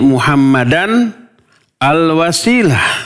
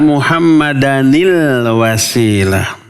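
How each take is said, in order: First: The n stays unvoweled before a separate al. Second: The n links with an i vowel: anil. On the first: "Tadinya kan begitu" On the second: "Dibaca Muhammadanil wasilah"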